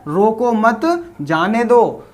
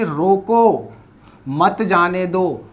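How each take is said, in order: First: रोको मत joined, short pause, then जाने दो; pause after मत. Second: रोको on its own, then a slow मत जाने दो; pause after रोको. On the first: Teacher reading the second sentence, pause after मत. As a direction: run रोको into मत, break before जाने दो. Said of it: "दूसरा क्या बोल रहा है". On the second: Teacher reading the first sentence, pause after रोको. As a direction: stop after रोको, keep मत जाने दो together. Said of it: "पहला सेंटेंस हमारा क्या है". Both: Shown as a demonstration.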